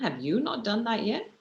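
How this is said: It sounds scornful of the listener's ability.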